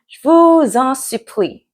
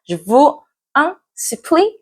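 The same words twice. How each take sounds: First: The words are linked together with liaison. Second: The words are said separately, without linking.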